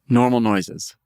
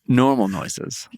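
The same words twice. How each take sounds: First: The stress falls on the word noises. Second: The stress falls on the word normal. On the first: The focus is on the noises themselves. The speaker calls it right. "So it's all about the noises" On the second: The focus is on the noises being normal. The speaker calls it wrong.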